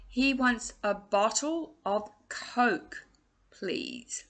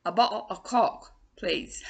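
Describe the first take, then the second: First: Slow, drawn-out "bottle of Coke", long round O in Coke; careful pronunciation. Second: Quicker "bottle of Coke", Coke with a short open O like "cock"; accented pronunciation. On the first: Teacher showing singers an order for Coke, careful pronunciation. Demonstrating accents in ordering a drink. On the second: Teacher joking about accents with a drink order, accented pronunciation. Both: Shown as a demonstration.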